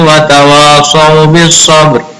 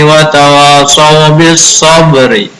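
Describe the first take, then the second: First: The final r is stopped with no vowel. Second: The final r is followed by a short i. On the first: "dengan mematikan huruf ra-nya" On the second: "dengan dihidupkan huruf baris terakhirnya"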